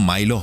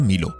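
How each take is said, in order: First: The first vowel sounds like 'eye'. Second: The first vowel sounds like 'ee'. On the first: This is the English pronunciation. "English উচ্চারণে কিন্তু মাইলো হবে" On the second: This is the Roman pronunciation. "Roman উচ্চারণে এটা মিলো"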